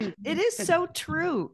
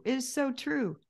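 First: Excited agreement. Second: Said in the usual way. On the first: Real, not acted.

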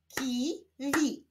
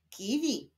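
First: KI, pause, WI; syllable by syllable. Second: Said in the usual way. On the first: Shown as a demonstration. Teacher joining syllables for learners, Ki-wi split apart. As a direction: sound out "Kiwi" with a gap after Ki. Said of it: "łączmy sylaby". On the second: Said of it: "Powstaną z nich wyrazy".

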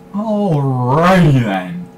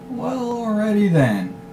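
First: "Alrighty" stretched very slowly, louder, put-on; slow, mock-comic alrighty. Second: "alrighty" drawn out high and slow, then falling. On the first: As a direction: drag out "Alrighty then" in a cartoonish voice. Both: Shown as a demonstration.

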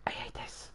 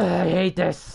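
First: Barely audible whisper; defeated whisper. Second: High, exasperated cry; frustrated outburst. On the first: Worn out by the build, defeated whisper. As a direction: whisper it with no voice left. Last, voiceless repeat. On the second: Fed up with the build, high frustrated outburst. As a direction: burst out with it as the groan breaks. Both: Real, not acted.

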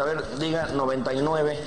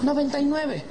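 First: Low, matter-of-fact doctor; understated doctor voice. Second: High, mincing reply; mock-effeminate patient. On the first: Acted. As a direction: give a routine examination instruction, pitched low. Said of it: "le pone el estetoscopio". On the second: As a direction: answer the doctor in a camp, high voice. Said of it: "llega un putito".

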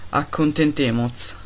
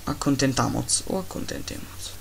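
First: Slow made-up Spanish "Accontentemos"; mock Spanish. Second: Softer fake Spanish "Accontentamos o accontentemos", weighing both; musing over fake Spanish forms; mock Spanish. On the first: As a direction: play a fake Spanish word. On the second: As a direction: quieter made-up Spanish, deciding the ending. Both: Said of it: "sto parlando una lingua che non esiste".

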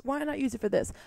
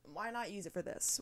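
First: Louder, higher and decided; emphatic repeat. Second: Quiet, thrown-away musing; half to herself. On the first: To listeners about the cheap mic, decided and louder. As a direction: say it again like you mean it. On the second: To listeners about the cheap mic, quiet musing. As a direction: mutter the idea to yourself first. Asks herself, then repeats louder. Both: Real, not acted.

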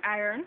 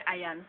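First: Said in the usual way. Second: "iron" as eye-yan; Jamaican pronunciation. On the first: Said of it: "calling the words and then giving". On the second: Shown as a demonstration. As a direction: say "iron" with an open a and no r. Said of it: "we would say".

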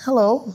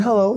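First: High, loud bright hello; mock hello. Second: High, loud friendly hello; mock hello. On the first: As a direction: try the hello once more, brighter. Second ignored greeting. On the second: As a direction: call out a cheerful hello. Greeting ignored by woman.

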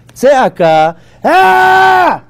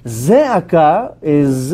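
First: Tzeaka then a sudden high loud ah; demo shout. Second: Zeaka said very slowly and evenly; calm slow demo. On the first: Teacher demonstrating tzeaka to class with a loud high shout. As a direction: belt out Tzeaka and cry ah like a real outcry. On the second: Teacher contrasting zeaka with tzeaka, said calm and slow. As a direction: draw out Zeaka slowly at normal level. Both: Shown as a demonstration. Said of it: "two different words between tzeaka and zeaka".

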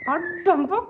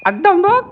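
First: High, soft coo to the cat. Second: High, louder sing-song call to the cat. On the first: Coaxing the kitten to look, soft high coo. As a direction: coax the kitten gently in a high voice. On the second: Calling the kitten to look, loud high sing-song. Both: Real, not acted.

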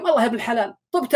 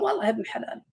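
First: Fast and cheerful with a laugh in it; quick laughing reply. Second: A soft, grudging mutter. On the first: The analog-clock man telling his friend he's healed, laughing. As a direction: tumble it out, pleased to be well. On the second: The digital-clock man answering his friend, quietly resigned. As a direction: sigh it out as if nothing ever changes. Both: Retold or imitated.

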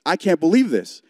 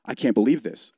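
First: Said out loud, a bit higher and louder, in disbelief; louder exasperated repeat. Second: Said in the usual way. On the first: Retold or imitated. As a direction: let the repeat rise in mock exasperation. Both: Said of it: "out loud, I was like".

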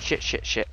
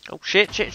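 First: Hushed, breathless cursing under the breath; whispered curse. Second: Sudden loud, high alarmed curse; startled curse. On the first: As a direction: mutter it low in a panic. Panic continues under breath. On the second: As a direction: blurt it out in a real panic. Mob surprise in game. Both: Real, not acted.

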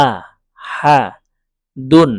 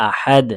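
First: "আহাদুন" slow and loud, syllable by syllable, ending in -dun; full ending, no stop. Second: "আহাদ" cut to a final d, without -un; waqf stop. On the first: Teacher showing the unpaused form, "আহাদুন" with full -un ending. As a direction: draw out "আহাদুন" with the -un ending voiced. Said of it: "আর ওয়াকফ করলে আহাদ". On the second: Teacher showing a pause, "আহাদ" ending on a stopped d. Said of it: "ওয়াকফ করলে". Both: Shown as a demonstration.

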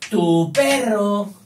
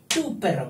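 First: "tu perro" loud, high and drawn out; emphatic dictation. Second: Said in the usual way. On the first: Shown as a demonstration. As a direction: belt out "tu perro" slowly, stretching both words. Teacher spells out contrasting possessive.

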